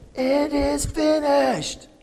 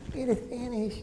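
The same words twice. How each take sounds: First: It is said loudly and boldly. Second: It is said softly and weakly. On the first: It is a triumphant declaration. The speaker calls it right. "So Jesus exclaimed, ... This was a very bold statement at the top of his lungs" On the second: It is a feeble resignation. The speaker calls it wrong. "It wasn't like that"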